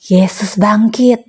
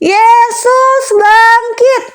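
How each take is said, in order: First: It is said quietly. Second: It is said loudly.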